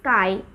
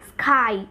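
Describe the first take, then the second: First: The k is released without a puff of air. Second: The k is released with a puff of air. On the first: The speaker calls it right. "এখানে d aspirated হচ্ছে তাই sky ... we're saying sky" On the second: The speaker calls it wrong. "we're not saying sky"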